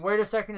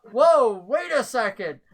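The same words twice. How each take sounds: First: Said in the usual way. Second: Higher, louder, slow exclamation; startled interjection. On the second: Acted. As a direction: halt everyone with a drawn-out whoa. Game master voices Claymore interrupting.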